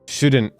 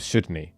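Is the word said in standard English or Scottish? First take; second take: standard; Scottish. First: It ends in a standard n't sound. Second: It ends in a Scottish nae sound. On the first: "N apostrophe T" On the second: "they do N A E"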